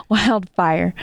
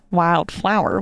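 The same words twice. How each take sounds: First: Wildfire said with a small laugh, fixing the slip; laughing self-correction. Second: Said in the usual way. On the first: Real, not acted. Correcting her own slip to the podcast friend, Wildfire with a laugh. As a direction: correct it to Wildfire through a chuckle.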